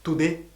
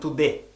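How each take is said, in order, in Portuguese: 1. A última vogal é um 'eh' plano. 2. A última vogal é um 'eh' plano.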